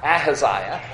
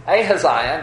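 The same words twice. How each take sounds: First: Ahaziah with a short, unlengthened first A; rejected pronunciation. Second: Ahaziah said ay-huh-ZY-uh, long A first; proper Bible pronunciation. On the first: Preacher showing the version to avoid, Ahaziah with short first A. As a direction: open Ahaziah on "ah" rather than "ay". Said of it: "not Ahaziah". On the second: Preacher teaching the congregation the website's version, Ahaziah with long first A. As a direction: open Ahaziah on a clear "ay". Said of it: "proper Bible pronunciation of names". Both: Shown as a demonstration.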